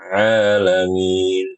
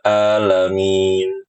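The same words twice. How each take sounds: First: The word starts with a deep throat consonant. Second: The word starts with a plain vowel sound. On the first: The speaker calls it right. "Harusnya dibaca alamin" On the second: The speaker calls it wrong. "Contoh yang sering terjadi"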